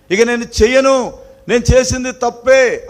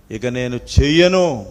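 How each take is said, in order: First: Higher, louder pleading promise; repentant plea. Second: Said in the usual way. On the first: Retold or imitated. Preacher voicing a beaten child begging, higher and louder. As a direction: beg forgiveness, voice rising. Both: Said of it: "అది గ్రహింపు అన్నమాట".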